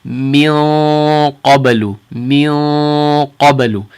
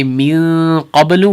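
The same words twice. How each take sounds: First: Very slow "min qablu" with the nasal held in the back; heavy ikhfa. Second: "min qablu" with a light front n; wrong ikhfa. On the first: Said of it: "hold it in the back of our mouths". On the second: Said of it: "we're not gonna say". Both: Shown as a demonstration.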